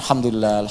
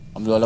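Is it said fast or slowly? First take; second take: slowly; fast. First: It is said slowly and calmly. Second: It is said fast, rattled off.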